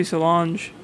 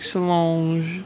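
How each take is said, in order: First: Solange said the English way, hard dge ending; everyday English Solange; plain Solange. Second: Imitating a French way of saying Solange; French pronunciation. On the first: Shown as a demonstration. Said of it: "I think I just say Solange". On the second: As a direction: Solange said the French way, nasal final vowel. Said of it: "You said it with some French".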